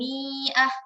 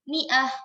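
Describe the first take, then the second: First: The first vowel is long. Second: The first vowel is short. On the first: The speaker calls it wrong. "tidak kita baca" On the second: The speaker calls it right. "mi-nya itu dibaca pendek"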